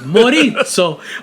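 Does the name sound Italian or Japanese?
Italian. The name is said with an Italian accent.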